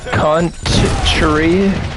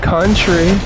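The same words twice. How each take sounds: First: The word is said slowly, syllable by syllable. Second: The word is said at normal speed.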